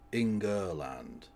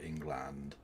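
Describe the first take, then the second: First: The word is said with three syllables. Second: The word is said with two syllables. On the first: The speaker calls it right. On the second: The speaker calls it wrong.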